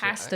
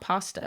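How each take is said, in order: First: It is said with a British accent. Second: It is said with a non-British accent. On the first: "That's why they say pasta" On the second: "not pasta"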